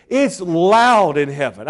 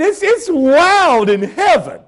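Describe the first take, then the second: First: Said in the usual way. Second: Louder and higher, ringing out; preacher building the congregation up to loud praise. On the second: Shown as a demonstration. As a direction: lift it and let it ring. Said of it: "really loud".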